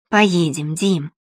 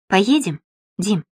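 First: Put-on gently coaxing a child. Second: Said in the usual way. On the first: A narrator's reading. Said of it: "уговаривала Нина сына".

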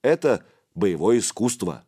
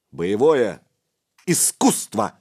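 First: Slightly offended. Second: Insistent, louder, word by word. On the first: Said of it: "слегка обиделся Духарев". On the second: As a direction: spell it out louder, annoyed. Repeats louder to the boy. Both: A narrator's reading.

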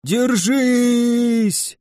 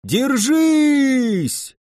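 First: High, drawn-out cheer; cheering yell. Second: High shouted cheer; louder cheering shout. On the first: Undead cheer on their side, high drawn-out yell. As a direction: urge them to hold on. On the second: Undead rally their comrades, high shouted cheer. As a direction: bellow it to rally them. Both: A narrator's reading. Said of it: "вопили отовсюду мертвяки".

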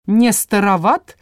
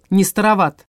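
First: Rising, mocking Не староват?; sarcastic question. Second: Не староват. falling, firm and final; flat retort. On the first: Like needling the old vampire, mocking question. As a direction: sneer Не староват? with a lift at the end. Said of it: "язвительно поинтересовался Лайк". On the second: Acted. Old vampire turning the taunt back, falling retort. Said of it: "Старший вампир оскалился".

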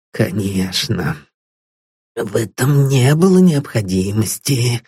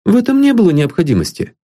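First: Put-on relieved old man repeats Paul's words with a nervous giggle. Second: Said in the usual way. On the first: A narrator's reading. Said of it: "нервно хихикнул он". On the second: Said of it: "Paul answers plainly".

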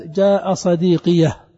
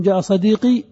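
First: صديقية with an open ya and a breathed final ha; pausal ha added. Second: صديقي ending on a plain long i; pause with silent ya. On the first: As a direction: demo of the silent ha in pause. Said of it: "وإما بهاء السكت". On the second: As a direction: stop on the i of صديقي. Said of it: "إما بالسكون". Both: Shown as a demonstration.

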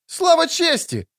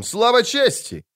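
First: Put-on much higher, slow young knight echoing Слава чести; a young squire taking up the cry; youthful voice. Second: Higher, slow knightly cry of Слава чести; a proud slow call: Слава чести; battle cry. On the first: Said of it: "подхватил юношеским голосом другой". (юношеский голос, гораздо выше и медленно) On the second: (боевой клич «Слава чести», выше и медленно) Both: A narrator's reading.

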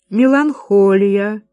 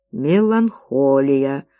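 First: Slow, drawn-out chanted word; chanted, intone it like a ghostly prophecy; singsong chant. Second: Said in the usual way. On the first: A narrator's reading. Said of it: "произнесла она нараспев". (chanted, нараспев, медленно и протяжно) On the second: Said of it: "запечатлел на бумаге её слова".

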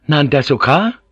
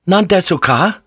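First: Higher question with a touch of irritation; mildly irritable. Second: High, loud irritable question. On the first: Omi towers over Blackthorn and asks, mildly irritable. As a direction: ask it pitched up, mildly impatient. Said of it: "Omi repeated more irritably". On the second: Omi repeats his question to silent Blackthorn, irritable. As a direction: demand it impatiently, voice pushed up. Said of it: "repeated more irritably". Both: A narrator's reading.

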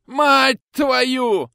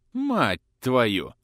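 First: Much higher, louder roared oath; yelling curse. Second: Curse slipping out. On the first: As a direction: roar the curse out. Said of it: "заорал вдруг ротмистр". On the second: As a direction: blurt the curse out. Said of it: "вырвалось у князя". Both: Acted.

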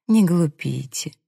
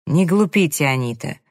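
First: Slow, coaxing admonishment; insinuating. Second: Mildly sharp reprimand; barked rebuke. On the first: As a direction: soothe and persuade, taking it slowly. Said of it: "Мак вкрадчиво продолжил". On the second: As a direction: scold her briskly, a touch raised. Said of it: "рявкнул Мак". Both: A narrator's reading.

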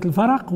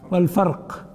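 First: الفرق with an a after the ra, "al-faraq"; vowelled ra. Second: والفرق with no vowel on the ra, "wal-farq"; silent-vowel ra. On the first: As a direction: say الفرق as two syllables, "fa-raq". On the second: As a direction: say والفرق ending in one syllable, "farq". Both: Shown as a demonstration. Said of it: "فرق بين قضية الفرق و-، والفرق".

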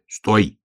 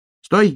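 First: Restrained shout from a bear cub; short, slightly higher cry to stop; bear cub's shout. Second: High, loud hedgehog yelp; urgent high-pitched shout; hedgehog's shout. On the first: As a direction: call halt, moderately raised voice. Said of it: "крикнул медвежонок". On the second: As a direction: cry halt in a high little voice. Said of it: "крикнул ёжик". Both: A narrator's reading.

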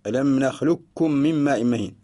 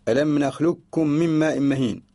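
The two takes are said the same way.

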